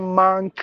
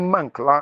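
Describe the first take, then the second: First: The vowel is long. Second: The vowel is short. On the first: The speaker calls it wrong. "We say monk" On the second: The speaker calls it right. "It should be monk. The short sound"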